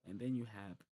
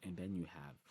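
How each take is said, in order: Both takes have the same delivery.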